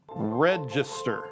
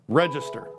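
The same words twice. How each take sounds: First: It rises at the end like a question. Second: It falls at the end like a statement.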